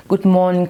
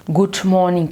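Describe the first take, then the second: First: "good morning" in a light British English accent. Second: "good morning" in a light American accent. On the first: Coach mocking learners, lightly British "good morning". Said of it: "comme, euh, un Anglais". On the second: Coach mocking learners, lightly American "good morning". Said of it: "comme un Américain". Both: Shown as a demonstration.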